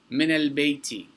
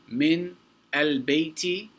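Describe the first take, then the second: First: The n in min carries an a vowel. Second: The n in min carries no vowel. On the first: The speaker calls it right. "it rolls off the tongue much easier" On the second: The speaker calls it wrong. "instead of saying"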